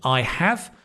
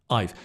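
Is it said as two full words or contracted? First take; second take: full; contracted. First: Both words are said in full. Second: The words are squeezed into one syllable.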